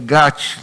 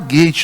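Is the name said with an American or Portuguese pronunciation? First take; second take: Portuguese; American. First: The name is said with Portuguese pronunciation. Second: The name is said with American pronunciation. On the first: The speaker calls it right. "É Gate" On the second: The speaker calls it wrong. "não vamos falar Gate, não, porque não é pronúncia é, é, americana"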